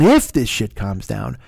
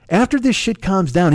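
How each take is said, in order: First: Slow, lower, leaning on "if" with a rise; stress on IF. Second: Said in the usual way. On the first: Real, not acted. Correcting himself mid-rant, leaning hard on "if". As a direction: hit the word "if" to correct yourself.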